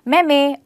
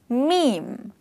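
First: The vowel does not rhyme with dream. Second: The word rhymes with dream. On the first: The speaker calls it wrong. "you're actually maybe pronouncing it as meme or mimi. Well, that's not the correct pronunciation" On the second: The speaker calls it right. "The correct pronunciation of this word rhymes with the word dream"

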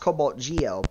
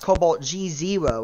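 First: The name ends with an oh sound. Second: The name ends with the word zero. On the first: The speaker calls it right. "it's pronounced CobaltGeo" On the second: The speaker calls it wrong. "it's not pronounced CobaltG0"

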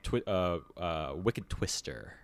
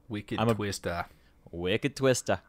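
First: It is said in the speaker's ordinary accent. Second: It is said in a Boston accent.

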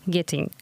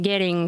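First: The middle t is a clear t sound. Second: The middle t sounds like a quick r. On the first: This is the full form of the word. "скорее всего, это getting" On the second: This is a casual, fast American form. "что-то подобное getting услышали"

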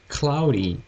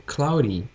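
Both takes have the same delivery.

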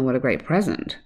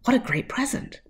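First: The voice sounds sarcastic and unenthusiastic. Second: The voice sounds sincere and happy. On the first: The speaker does not want the present. "the boy might say in a slightly sarcastic way" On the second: The speaker is pleased with the present. "she's going to be happy"

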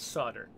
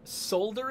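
First: The word is pronounced differently from its spelling. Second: The word is pronounced the way it is spelled. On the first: The speaker calls it right. "until I found out that the word was solder" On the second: The speaker calls it wrong. "That's how I used to read that word"

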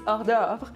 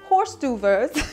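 First: It is said with a French-style pronunciation. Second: It is said with an English-style pronunciation. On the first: The speaker calls it right. "it's hors d'oeuvre" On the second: The speaker calls it wrong. "It's not horse d'oeuvres"

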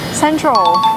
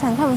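First: The word ends with a clear 'tral' sound. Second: The word ends with a 'tum' sound.

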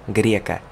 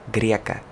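Both takes have the same delivery.

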